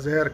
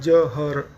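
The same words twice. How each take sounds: First: The h is half and joined to the first syllable. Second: The h is a full sound in a separate syllable. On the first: This is the original form of the word. The speaker calls it right. "ज और ह आधा मान लीजिए उसको, तो ज के साथ जुड़ जाएगा" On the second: This is a corrupted, adopted form of the word. The speaker calls it wrong. "जिस तरह से हम हिंदी में बोलते हैं जहर, वो अपभ्रंश है"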